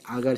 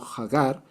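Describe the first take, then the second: First: The name is said the usual Spanish way. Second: The name is said the Hebrew way. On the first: The speaker calls it wrong. "no se dice Agar" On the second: The speaker calls it right. "Agar en hebreo se dice Hagar"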